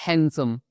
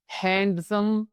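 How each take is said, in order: First: "हैंडसम" said as "hansom", d silent; correct pronunciation. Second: "हैंडसम" with the d sounded, marked as wrong; wrong pronunciation. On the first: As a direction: give "हैंडसम" the right way, no d sound. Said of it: "इसको हम पढ़ते हैं". (सही उच्चारण, "हैंडसम" बिना डी के) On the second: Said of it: "हैंडसम नहीं पढ़ेंगे". (गलत उच्चारण, "हैंडसम" में डी बोलकर) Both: Shown as a demonstration.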